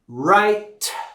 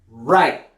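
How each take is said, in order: First: The final T is fully and strongly released. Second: The final T is started but cut off. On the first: "with the strong T sound at the end" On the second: "I'm going to start that T sound, but then stop it"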